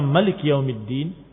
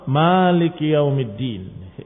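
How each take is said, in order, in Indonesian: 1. Vokal sebelum l itu pendek. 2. Vokal sebelum l itu panjang.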